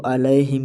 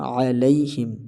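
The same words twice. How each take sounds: First: "علیہم" as a-lae-him; majhool vowel. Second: "علیہم" with throat ain and tight lai glide; a-lay-him, end the middle of "علیہم" on y; clear lai. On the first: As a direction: loosen the diphthong in "علیہم" to lae. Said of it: "لئے پڑھنا مجہول ہے". ("علیہم" مجہول انداز میں) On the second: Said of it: "لئی پڑھا جائے گا". ("علیہم" لئی کے ساتھ) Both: Shown as a demonstration.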